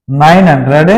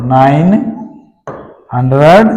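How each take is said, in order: First: Said in the usual way. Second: nine, a long pause, then hundred; slow, word by word. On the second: Shown as a demonstration. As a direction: say nine and hundred apart with a clear gap between. (Nine और hundred को रुक-रुक कर अलग बोलना) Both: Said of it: "तीनों इकट्ठे बोलने हैं".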